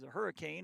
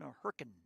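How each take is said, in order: First: Hurricane is said with three full syllables. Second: Hurricane is squeezed into two syllables, local style.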